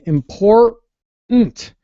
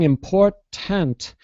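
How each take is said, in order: First: The middle T is held without a burst. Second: The middle T is clearly released with a burst. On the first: "we don't really explode that middle T" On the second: "instead of saying important"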